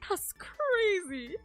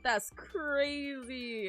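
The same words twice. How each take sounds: First: It is said in a strong British accent. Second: It is said without a British accent. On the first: "I say it in a really British way instead" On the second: "I don't go like"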